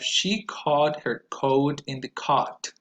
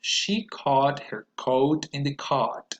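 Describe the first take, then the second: First: Slow, vowels clear; first take; slow model sentence. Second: Slower, with the mouth opening on each vowel; second take; slower repeat. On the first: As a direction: model for repetition. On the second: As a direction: repeat very carefully. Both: Shown as a demonstration. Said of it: "So one more time".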